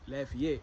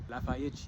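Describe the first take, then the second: First: It is said with a standard non-Brazilian pronunciation. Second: It is said with a Brazilian Portuguese pronunciation. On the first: "Brazilians don't call Lafayette Lafayette" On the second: "they call it Lafayette"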